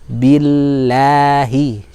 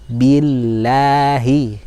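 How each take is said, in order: No difference in how they are said.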